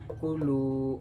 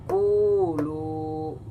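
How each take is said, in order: First: The vowel of the second syllable is lengthened. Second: The vowel of the first syllable is lengthened. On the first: The speaker calls it right. "itu yang benar" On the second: The speaker calls it wrong. "contoh kalau misalnya dibaca salah begini"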